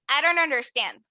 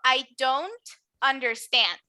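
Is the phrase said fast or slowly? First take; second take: fast; slowly. First: The phrase is said fast, the d like r. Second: The phrase is said slowly with a clear d. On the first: "pronuncio muy rápido" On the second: "si lo pronuncio despacito"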